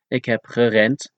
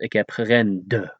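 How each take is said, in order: First: The final consonant is a voiceless T sound. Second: The final consonant is a voiced D sound. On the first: The speaker calls it right. "is pronounced as ik heb gerend" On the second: The speaker calls it wrong. "and not ik heb gerende"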